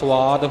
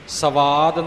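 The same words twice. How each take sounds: First: The s and v sounds form one cluster. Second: A vowel separates the s and v sounds. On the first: The speaker calls it right. "ਇਸ ਦਾ ਉਚਾਰਨ ਸਵਾਦ ਹੋਵੇਗਾ" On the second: The speaker calls it wrong. "ਸਵਾਦ ਨਹੀਂ ਹੋਵੇਗਾ, ਉਹ ਪੂਰਾ ਵਵੇ ਦਾ ਉਚਾਰਨ ਨਹੀਂ ਹੋਣਾ"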